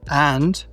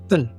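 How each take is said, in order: First: The word is said with a full vowel. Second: The word is said with a weak schwa vowel.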